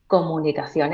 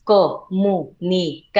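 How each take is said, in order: First: Said in the usual way. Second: Comunicación said syllable by syllable, slow and marked; syllabified. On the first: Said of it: "porque entonces no es". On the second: Shown as a demonstration. Voice coach showing the host how to syllabify, slow and marked. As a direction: spell out co-mu-ni-ca-ción beat by beat, slowly. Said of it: "te voy a decir silabeado".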